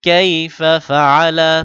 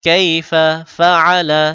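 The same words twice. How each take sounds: Both takes have the same delivery.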